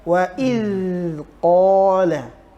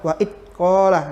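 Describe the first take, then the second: First: The dh sound flows out without being held. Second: The dh sound is held back and cut off. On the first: The speaker calls it right. "yang harusnya wa idqala ya, tidak ditahan" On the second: The speaker calls it wrong. "ini kebiasaan kita menyebutkannya seperti wa itqala, Nah ini salah"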